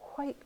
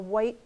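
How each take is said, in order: First: The word starts with a breathy hw sound. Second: The word starts with a plain w sound.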